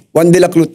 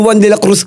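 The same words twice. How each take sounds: First: "dilaklut" with l for the r and t for the z; the bulol way, "dilaklut" not Dilacruz; lisped name. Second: Said in the usual way. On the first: Shown as a demonstration. Cousin's text recalled, lisps "dilaklut". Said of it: "dahil bulol nga ako". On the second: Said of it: "One Dilaklut na yun".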